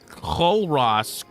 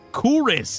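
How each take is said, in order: First: It is said as spelled, with two clear syllables. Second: It is said like 'Kuris', with a cool vowel. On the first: The speaker calls it wrong. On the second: The speaker calls it right.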